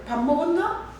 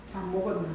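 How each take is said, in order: First: Gangwon dialect. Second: Said in the usual way. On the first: Acted. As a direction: greet them in Gangwon dialect, voice lifting at the end. (강원도 사투리로 끝을 올려 묻기) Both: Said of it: "강원도 말로".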